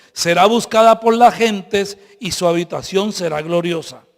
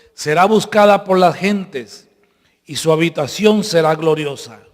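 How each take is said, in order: The two takes are said the same way.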